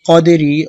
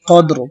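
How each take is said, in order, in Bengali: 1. শব্দটি একটি হ্রস্ব i স্বরধ্বনি দিয়ে শেষ হয়। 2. শব্দটি একটি খালি r ব্যঞ্জনধ্বনি দিয়ে শেষ হয়। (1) "রজের রি কদেরি" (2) "অক্ফের সময় র সাকিন করতে হবে কদ্র হবে"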